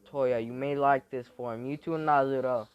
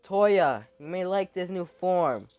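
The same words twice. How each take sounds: First: Said in the usual way. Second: Loud call. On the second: Acted. Character calls out to Toya.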